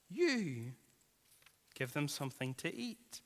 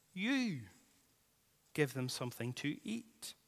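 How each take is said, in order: First: "You" held apart with a pause, rest fading quiet; stress on you. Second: "You" lifted and set apart, then "give them something to eat" dropped soft; stress on you. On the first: Preacher repeating Jesus' command, pausing after "You". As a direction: lean on "You", let the rest trail off. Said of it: "it could be put in bold and underlined". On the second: Preacher quoting Jesus to tired disciples, stress on "You". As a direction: hit "You" hard before a pause. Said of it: "The Greek, the you, is emphatic". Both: Shown as a demonstration.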